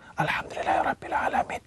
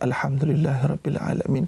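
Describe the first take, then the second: First: It is said in a whisper. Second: It is said aloud with full voice.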